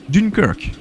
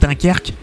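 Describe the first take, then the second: First: The name is said with an English accent. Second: The name is said with a French accent. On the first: "avec un petit accent anglais" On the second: "C'est sûr qu'en France"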